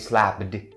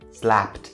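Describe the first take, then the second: First: The ending is an extra 'id' syllable. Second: The ending is a plain t sound. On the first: The speaker calls it wrong. "Don't ever say slapped, slapped. It's wrong" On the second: The speaker calls it right. "the ed part is supposed to be pronounced as the T sound"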